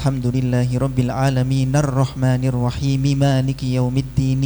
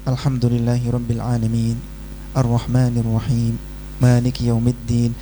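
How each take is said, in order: First: Verse endings are voiced and linked into the next. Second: Verse endings are clipped, with a pause after each. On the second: "Kalau mau baca dengan mematikan huruf terakhir ya harus jeda"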